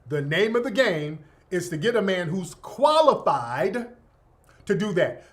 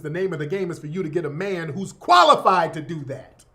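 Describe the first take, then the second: First: It is said slowly. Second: It is said at normal speed.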